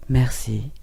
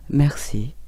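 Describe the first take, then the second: No difference in how they are said.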